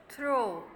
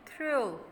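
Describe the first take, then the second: No difference in how they are said.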